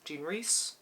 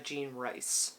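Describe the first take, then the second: First: The surname rhymes with piece. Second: The surname rhymes with ice. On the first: The speaker calls it right. "I think it's Reese" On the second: The speaker calls it wrong. "I always say this wrong"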